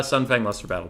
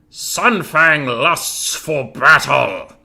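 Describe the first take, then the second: First: Said in the usual way. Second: Loud, drawn-out war cry; battle catchphrase. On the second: Acted. Game streamer trying out a warrior catchphrase for chat, booming war cry. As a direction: roar it out slowly like a battle cry. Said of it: "Which cat-, catchphrase is better".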